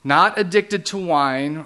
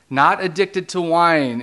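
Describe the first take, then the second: First: Said in the usual way. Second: NOT hit loud, the line said slowly and louder; slow down and lean hard on NOT; emphatic repeat with NOT punched; stress on NOT. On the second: Shown as a demonstration.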